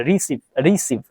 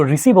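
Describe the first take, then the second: First: "रिसीव" split into two syllables, री-सीव; twee lettergrepen. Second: Said in the usual way. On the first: Shown as a demonstration. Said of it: "टू सिलेबल".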